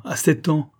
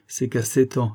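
First: Higher, grief-stricken repeat; anguished echo; rising anguish. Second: Restrained grief, near usual pitch; subdued anguish; pained revelation. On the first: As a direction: lift the voice in pain on the age. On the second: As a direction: begin the sad news, holding back. First take before anguished repetition. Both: A narrator's reading.

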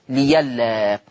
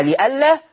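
First: ليلا with a y glide replacing the hamza; hamza turned ya. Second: لئلا with a glottal stop after li; hamza kept. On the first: Teacher shows the changed word, ليلا with a y sound. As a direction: say ليلا as li-yal-la. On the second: Teacher gives the original word, لئلا with its hamza. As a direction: say لئلا as li-'al-la. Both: Shown as a demonstration. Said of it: "تبدل ياء فتصير ليلا".

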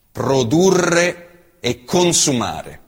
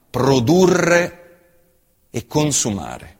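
Both takes have the same delivery.

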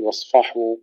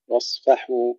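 First: واصفحوا with thickened, dark fa; wrong heavy fa. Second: واصفحوا with thin fa after heavy sad; light fa. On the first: Teacher shows what not to say, heavy fa in واصفحوا. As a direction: darken the a after f in واصفحوا. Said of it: "ولا نقول". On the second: Teacher models correct واصفحوا, light fa. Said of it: "كذلك الفاء". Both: Shown as a demonstration.

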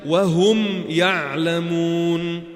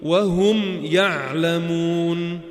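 First: وهم يعلمون chanted very slowly with the meem of وهم given its full due; clear meem recitation. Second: وهم يعلمون chanted very slowly, the meem of وهم fully sounded with a tiny pause after it; clear meem recitation. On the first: Teacher repeating the example for students, slow clear meem recitation. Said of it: "أعطيت حقه لحرف الميم". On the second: Teacher showing students how to make the meem distinct, slow recitation. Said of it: "تقول". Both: Shown as a demonstration.

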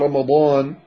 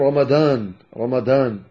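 First: رمضان with a true emphatic ض; proper emphatic ض in رمضان; correct Dad. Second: رمضان with ض turned into a D sound; wrong Dad. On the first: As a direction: say رمضان with a full, heavy Arabic Dad. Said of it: "بدل أن يقول رمضان". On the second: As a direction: say رمضان as "Ramadan" with a dal. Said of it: "هذا خطأ". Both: Shown as a demonstration.

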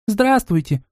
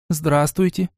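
First: Put-on child shouting hello. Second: Said in the usual way. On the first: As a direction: shout the hello like a little kid. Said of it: "в тон ей прокричала младшая". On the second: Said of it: "тут же поправилась старшая девочка".

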